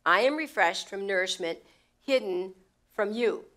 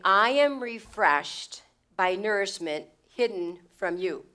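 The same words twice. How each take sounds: First: "hidden" set apart with pauses before "from you"; paused emphasis. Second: Slow, the word "am" pressed hard and the pronoun "you" stressed; emphatic pronouns. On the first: Preacher repeating the verse phrase by phrase, with pauses. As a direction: break it up so that "you" lands alone. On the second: Preacher explaining the emphatic pronouns, slow and weighty. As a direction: lean on "am" and "you", taking it slowly. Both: Shown as a demonstration. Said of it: "They're emphatic".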